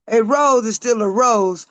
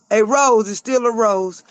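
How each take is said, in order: Both takes have the same delivery.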